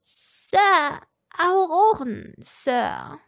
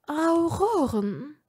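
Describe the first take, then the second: First: High, nervous little servant voice; uneasy servant. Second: Slow, rising disbelieving repeat of Auroren; slow questioning repeat. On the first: Servant Egolina warning her master, high and uneasy. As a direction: squeak it out uneasily. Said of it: "Egolina wirkte Unbehagen". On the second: Lucius repeating the servant's news, slow and doubtful. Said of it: "wiederholte Lucius". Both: A narrator's reading.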